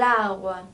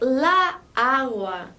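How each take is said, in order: First: The two A vowels merge into one. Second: The two A vowels are kept apart.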